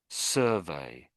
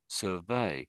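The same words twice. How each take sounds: First: The stress is on the first syllable. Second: The stress is on the second syllable. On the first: It is used as a noun. "the noun is pronounced" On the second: It is used as a verb. "the verb is pronounced"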